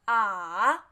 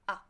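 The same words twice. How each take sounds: First: The pitch dips down and then rises. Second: The syllable is short and light, without contour. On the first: "third tone, fall, then rise" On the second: "light tone"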